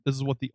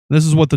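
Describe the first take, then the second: First: The voice sounds less booming and boomy. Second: The voice sounds more booming and boomy. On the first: "This is what the old microphones sound like" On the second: "a little bit more booming"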